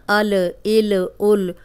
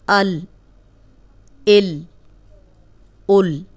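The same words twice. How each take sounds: First: अल इल उल with the ल bounced like qalqalah; wrong shaken lam. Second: अल इल उल with the tongue held on the palate, no bounce; correct steady lam. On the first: Teacher showing students a mistake, shaking अल इल उल. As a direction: deliberately shake the ल to show the error. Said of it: "आपने इसको ऐसे नहीं पढ़ना". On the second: Teacher giving students the correct steady अल इल उल. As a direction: hold the ल firm and still. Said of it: "जब आपकी ज़बान लाम पे जाए". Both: Shown as a demonstration.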